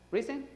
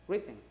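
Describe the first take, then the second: First: "Risen" said the English way with a high rising tune; English pronunciation. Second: "Risen" repeated with a falling, final tune; settled pronunciation. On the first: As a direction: model the English word "Risen", pitched up as a question. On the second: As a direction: say "Risen" again, calmly and falling. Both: Shown as a demonstration. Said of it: "así se dice en inglés".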